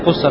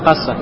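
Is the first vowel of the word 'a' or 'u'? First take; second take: u; a. First: The first vowel is a 'u' sound. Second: The first vowel is an 'a' sound. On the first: The speaker calls it wrong. "Здесь с даммой кусса, так это неправильно" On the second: The speaker calls it right. "Правильно будет касса"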